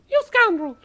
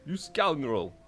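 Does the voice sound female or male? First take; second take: female; male. First: It is said in a female-sounding voice. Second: It is said in a male-sounding voice. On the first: The speaker calls it right. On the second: The speaker calls it wrong.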